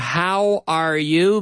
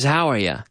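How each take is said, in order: First: The three words are said separately. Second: The three words run together smoothly.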